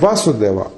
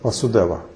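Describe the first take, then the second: First: The first syllable 'Va' is stressed. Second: The first syllable 'Va' is unstressed. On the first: It names the Supreme Personality of God. "акцент, когда мы говорим Васудева, а Ва, так это верховная личность" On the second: It names the all-pervading Brahman state. "просто «Васудева», без акцента"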